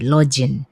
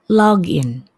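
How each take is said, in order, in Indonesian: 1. G-nya dibaca seperti bunyi j. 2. G-nya dibaca keras.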